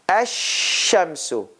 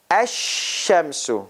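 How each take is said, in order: The two takes are said the same way.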